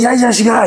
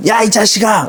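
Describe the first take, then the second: First: Happy greeting. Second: Angry shout. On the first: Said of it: "친구들끼리 오랜만에 만나서 반가울 때". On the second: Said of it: "화났을 때 톤이 이런 식으로". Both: Shown as a demonstration.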